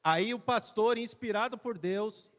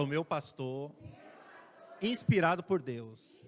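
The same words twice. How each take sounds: First: Loud, slow preaching rise; preacher's build-up. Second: Inspirado stretched and loud; slow emphatic repeat. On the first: Pastor announcing God's inspiration, loud and slow. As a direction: proclaim it to the church. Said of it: "Não, por favor, fala de novo agora assim". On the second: Preacher models the phrase for the congregation, loud and slow. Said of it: "fala de novo agora assim". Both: Shown as a demonstration.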